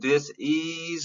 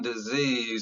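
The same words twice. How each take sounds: First: It is split in two with an s sound. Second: It is one word with a z sound. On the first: It names a lack of ease. "instead of dis-ease" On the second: It names an illness. "I'm saying it with a Z's"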